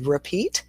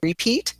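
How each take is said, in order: First: The first vowel is a reduced sound. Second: The first vowel is a full vowel. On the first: The speaker calls it right. "we say repeat" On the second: The speaker calls it wrong. "instead of saying repeat"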